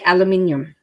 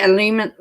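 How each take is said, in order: First: Said the way the speaker's own accent says it. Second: Said the way the listener's accent says it. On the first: This is how the speaker's side says it. "we say aluminium" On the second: This is how the listener's side says it. "so you say aluminum"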